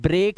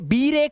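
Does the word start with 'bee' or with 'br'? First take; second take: br; bee. First: The word starts with a 'br' cluster. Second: The word starts with a separate 'bee' syllable. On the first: The speaker calls it right. "ये ब्रेक है" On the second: The speaker calls it wrong. "ये बी रेक नहीं है"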